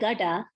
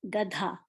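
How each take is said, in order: First: The d is plain, with no breath after it. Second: The d is followed by a puff of breath. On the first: The speaker calls it wrong. "I'm not saying gada" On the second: The speaker calls it right. "after the D sound ... I'm making an H sound"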